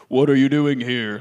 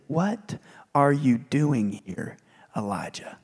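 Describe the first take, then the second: First: Low, loud booming question; audible voice of God. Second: Slow whispered question from God; gentle whisper. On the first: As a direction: boom it out as God's voice. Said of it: "would have just audibly said". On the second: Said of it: "came a gentle whisper". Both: Acted.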